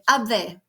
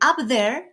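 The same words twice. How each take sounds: First: It is said in a Jamaican accent. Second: It is said in a standard English accent. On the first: This is the Jamaican form. "they say up there" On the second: This is the standard English form. "instead of saying up there"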